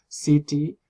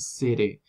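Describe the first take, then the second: First: The middle consonant is a full T stop. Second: The middle consonant is a quick tongue tap. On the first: "en vez de decir" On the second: "dicen city"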